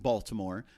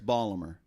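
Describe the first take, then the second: First: The city name is said in a general accent. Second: The city name is said in a local accent. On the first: This is how people elsewhere say it. "Now we pronounce it Baltimore" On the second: This is how locals say it. "but up there it's Ballimer"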